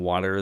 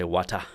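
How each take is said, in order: First: It is said in a standard accent. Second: It is said in a Caribbean island accent. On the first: "instead of saying water" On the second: "they say wata"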